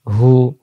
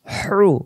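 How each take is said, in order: First: Open, easy "হু"; "হু" without throat friction; plain hu. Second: Whooshing squeezed h in "হ্রু", no r; hissing throaty hu. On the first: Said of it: "এমন করে পড়ার জন্য". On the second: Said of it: "শো শো আওয়াজে". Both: Shown as a demonstration.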